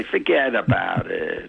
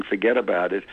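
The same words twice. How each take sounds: First: Slow, dismissive New York accent on "Forget about it"; "Forget about it" with a thick New York accent, cutting in. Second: Said in the usual way. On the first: Shown as a demonstration. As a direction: wave it off like a New Yorker, drawn out. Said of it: "I just say". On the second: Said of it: "The important thing about using".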